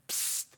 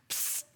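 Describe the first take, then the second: No difference in how they are said.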